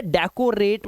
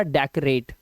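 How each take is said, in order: First: डेकोरेट said with a full "ko" in the middle, dek-o-rate; wrong pronunciation. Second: डेकोरेट said with the middle "o" reduced, dek-rate; correct pronunciation. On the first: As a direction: sound out a clear long "o" in डेकोरेट. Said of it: "इसे डेकोरेट मत पढ़ना". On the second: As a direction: squeeze "ko" down to a quick "k'" in डेकोरेट. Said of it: "इसे पढ़ना डेकोरेट". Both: Shown as a demonstration.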